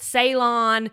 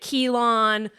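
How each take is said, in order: First: The word begins with an S sound. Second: The word begins with a K sound. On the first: "is it Ceylon?" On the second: "Is it Keylon?"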